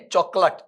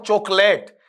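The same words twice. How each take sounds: First: चॉकलेट with short, reduced last vowel; correct pronunciation. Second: चॉकलेट slowly, with long "layt"; wrong pronunciation. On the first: Teacher correcting students, चॉकलेट ending in short "lut". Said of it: "लेट नहीं है". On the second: Teacher warning against the mistake, चॉकलेट with drawn-out "layt". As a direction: stretch चॉकलेट as "chok-layt". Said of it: "not चॉकलेट". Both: Shown as a demonstration.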